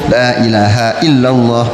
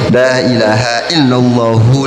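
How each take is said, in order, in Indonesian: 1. Frasa ini berhenti pada bunyi h di akhir. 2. Frasa ini berakhir dengan bunyi vokal u. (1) "Udah kita wakafin aja lah" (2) "ada yang diwasan"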